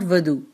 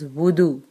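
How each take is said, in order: First: The first vowel is not an 'oo' sound. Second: The first vowel is an 'oo' sound. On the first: The speaker calls it wrong. "It is not wudu. It is a wrong term" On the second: The speaker calls it right. "It is wudu. It had dhamma or pesh on waw"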